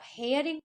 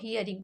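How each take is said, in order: First: The first vowel sounds like 'hair'. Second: The first vowel sounds like 'here'. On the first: The speaker calls it wrong. "अगर आप हेयरिंग पढ़ते हैं तो गलत है" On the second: The speaker calls it right. "इसको हियरिंग पढ़ेंगे"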